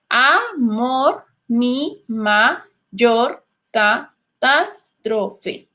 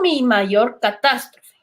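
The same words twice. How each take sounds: First: Very slow, each syllable of "mi mayor catástrofe" split apart. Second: Said in the usual way. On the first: Shown as a demonstration. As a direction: count out every syllable slowly. (muy lento, separando cada sílaba) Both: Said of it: "Primero los debemos separar en sílabas".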